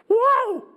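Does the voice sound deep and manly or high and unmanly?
high. It is said in a higher, less manly voice.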